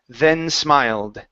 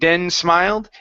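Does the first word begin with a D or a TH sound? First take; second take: TH; D. First: The first word begins with a TH sound. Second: The first word begins with a D sound. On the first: The speaker calls it right. "Make sure your tongue is between your teeth" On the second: The speaker calls it wrong. "Instead of den smiled"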